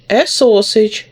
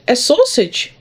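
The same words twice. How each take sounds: First: SAUSAGE stated as a settled answer; confirming. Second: SAUSAGE pitched high as a surprised query; questioning. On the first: Teacher reads the poem's answer to pupils, confirming. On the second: Teacher reads the poem's puzzled question to pupils, questioning. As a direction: query the word SAUSAGE in a raised voice. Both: Acted.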